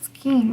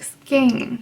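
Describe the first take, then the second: First: The vowel is a long 'ee' sound. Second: The vowel is not a long 'ee' sound. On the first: The speaker calls it wrong. "not skeen, because it, there's no two E's" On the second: The speaker calls it right. "the way to pronounce it is like skein"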